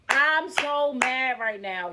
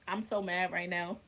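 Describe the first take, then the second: First: Slow, drawn-out anger; openly mad. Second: Low, quiet seething; quietly mad. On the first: Venting to viewers, slow and openly angry. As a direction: let the anger stretch out slowly. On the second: Venting to viewers in a low seething voice. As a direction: hold the anger in, barely audible. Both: Real, not acted.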